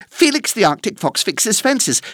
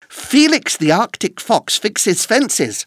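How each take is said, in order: First: It is said at a very fast pace. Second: It is said at a faster pace.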